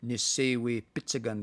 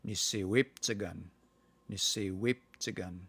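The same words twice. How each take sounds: First: "Nisewe pitsagan" with the I kept; full vowels. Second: "Niseweptsagan" with the I gone; dropped vowel. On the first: Showing the Saskatchewan form, vowels kept in full. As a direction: say "Nisewe pitsagan" with every syllable. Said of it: "You could say". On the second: Teacher giving the local Treaty Six form, I dropped. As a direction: run "Niseweptsagan" together without the I. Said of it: "That I in there just kinda disappears". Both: Shown as a demonstration.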